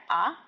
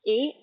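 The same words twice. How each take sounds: First: "A" said as an open ah; French "A", a pure ah sound; French letter A. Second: Said in the usual way. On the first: Shown as a demonstration. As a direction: pronounce "A" the French way, ah. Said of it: "then I'll say the French one". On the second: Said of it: "I'll first say the English letter".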